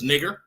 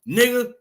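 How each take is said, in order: First: The word ends with a hard R sound. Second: The word ends in a vowel with no R. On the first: This is the form used by proper-speaking people. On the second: This is how the word was said on plantations. "exactly how I'm saying it right now"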